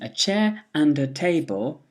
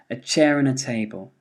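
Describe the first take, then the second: First: The word 'and' keeps its full vowel. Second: The word 'and' is reduced to a weak vowel.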